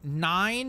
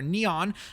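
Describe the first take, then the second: First: The name sounds like the number nine. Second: The name sounds like the word neon. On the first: "pronounced like the number nine" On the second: "pronounced like neon"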